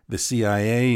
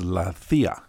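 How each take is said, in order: First: It is spelled out letter by letter. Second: It is said as a single word.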